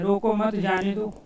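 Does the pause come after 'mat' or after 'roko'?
after mat. The pause comes after the word 'mat'. "अर्थात इसको पकड़ के नहीं रखना है"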